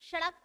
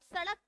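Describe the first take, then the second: First: The word begins with an 'sh' sound. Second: The word begins with an 's' sound. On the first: The speaker calls it wrong. "तो नहीं बोलते हो" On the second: The speaker calls it right. "सड़क को"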